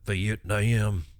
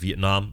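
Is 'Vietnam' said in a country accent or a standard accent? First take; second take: country; standard. First: It is said in a drawling country accent. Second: It is said in a plain standard accent.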